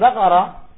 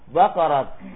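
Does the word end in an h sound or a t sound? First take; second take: h sound; t sound. First: The word ends with an h sound. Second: The word ends with a t sound. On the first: The speaker calls it wrong. "Bukan Baqarah" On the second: The speaker calls it right. "Diwaqafkan pada ta"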